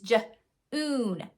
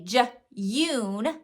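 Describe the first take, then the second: First: The vowel sounds like a plain 'oo' after the j. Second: The vowel sounds like 'yoo' after the j. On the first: The speaker calls it right. "It's j-oon, June. It's the oo sound" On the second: The speaker calls it wrong. "We can't have them say j-yoon"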